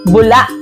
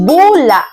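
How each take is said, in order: First: It is said quickly with a catch at the end. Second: It is said slowly, without a quick ending. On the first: It means a thin bubble of liquid. "may diing mabilis at may impit na tunog sa bandang dulong bahagi" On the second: It means exposing a lie or mistake. "Ito ay kabilang sa diing malumi"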